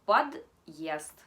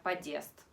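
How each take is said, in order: First: Подъезд said loudly with a hard d and a break before the yezd; громко и чётко: подъезд с твёрдым знаком; correct hard sign. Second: Подъезд said with the д softened and the o reduced, like padest; showing the soft-д mistake on подъезд; wrong soft version. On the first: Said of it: "Sin el signo duro sería подъезд". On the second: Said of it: "Sin el signo duro sería". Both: Shown as a demonstration.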